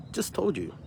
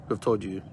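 First: "just told" lifted much higher, pressed hard; stress on just told. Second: Said in the usual way. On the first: Shown as a demonstration. Pressing viewers about frontline fears, rising stress on "just told". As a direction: pitch "just told you" way up for emphasis.

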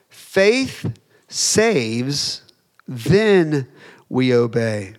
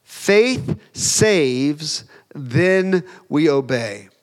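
First: Faith saves lifted with a rise, then a pause before we obey; 「Faith saves」を上げて、間を置いて「we obey」; rising emphatic repeat. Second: Faith saves, then we obey, each part weighed slowly; 「faith saves」を一語ずつ区切って; slow emphatic slogan. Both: Shown as a demonstration. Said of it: "Point number two".

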